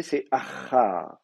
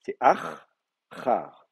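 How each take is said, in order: First: « achar » lent, le ch légèrement allongé; prononciation réelle. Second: « achar » très lent, ch doublé et appuyé : akh-khar; gémination prononcée. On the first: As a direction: montrer la gémination dans « achar ». (« achar » articulé lentement) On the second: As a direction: faire entendre le ch géminé de « achar ». (« achar » avec le ch nettement redoublé) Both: Shown as a demonstration. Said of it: "Mais en réalité".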